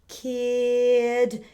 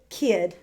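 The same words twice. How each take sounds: First: The word is stretched out slowly. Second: The word is said quickly.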